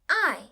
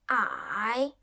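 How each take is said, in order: First: The pitch falls sharply from high. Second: The pitch dips low then rises.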